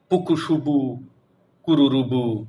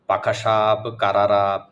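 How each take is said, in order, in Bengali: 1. প্রতিটি স্বরধ্বনি একটি u ধ্বনি দিয়ে বদলানো হয়। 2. প্রতিটি স্বরধ্বনি একটি a ধ্বনি দিয়ে বদলানো হয়। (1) "রস্যুকার দিয়ে" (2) "আকার দিয়ে"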